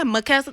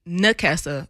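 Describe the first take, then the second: First: The name begins with an M sound. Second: The name begins with an N sound. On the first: The speaker calls it wrong. "sometimes the N sounds like an M" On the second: The speaker calls it right. "it's Nakessa"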